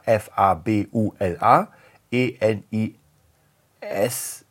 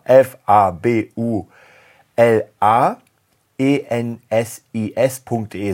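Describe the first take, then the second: First: F A B U L A E N I S, each letter said on its own, the second S left out; spelling it out. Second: F A B U L A E N S I S punkt de, spelled loud and slow with every letter said clearly; spelling it out. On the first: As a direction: spell F A B U L A E N I S letter by letter at normal volume. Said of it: "Also ich buchstabier's mal". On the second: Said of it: "Mann, also nochmal". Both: Shown as a demonstration.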